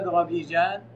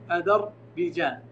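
First: The dh sound is closed with no vowel. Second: The dh sound is followed by an a vowel. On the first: "إن سكرناها" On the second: "وفتح قوم الذال"

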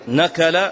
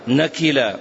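First: The middle vowel is a, as in qa'ada. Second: The middle vowel is i, as in ta'iba. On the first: "من باب قعد" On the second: "أو تعب"

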